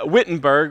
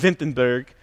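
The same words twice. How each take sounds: First: The name is said with an English accent. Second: The name is said with a German accent.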